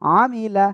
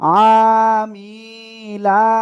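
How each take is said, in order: First: The vowels are kept short. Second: The vowels are stretched out long. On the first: The speaker calls it right. "তাহলে পড়বো কি?" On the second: The speaker calls it wrong. "এরকম টেনে পড়লে কিন্তু আপনার ভুল হবে"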